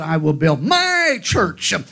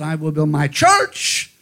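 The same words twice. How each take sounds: First: The stress is on "my". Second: The stress is on "church".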